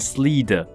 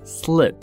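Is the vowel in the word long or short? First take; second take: long; short. First: The vowel is drawn out long. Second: The vowel is clipped very short. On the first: The speaker calls it wrong. "I 的声音不小心发太长了，就会变slid" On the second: The speaker calls it right. "它是很短很短的，小小短短的半拍"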